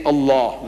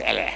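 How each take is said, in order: First: Slow "Allah" with a long "aw" ending; correct Arabic pronunciation. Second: "Allah" as a short "el-leh"; mispronounced Allah. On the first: Lecturer telling editors how to say it, correct pronunciation. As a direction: say "Allah" as "al-LAAW", drawn out. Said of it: "pronounce it the way I ask". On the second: Lecturer showing editors the wrong way, mispronounced. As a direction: end "Allah" on a clipped "eh" vowel. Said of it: "but say Allah". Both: Shown as a demonstration.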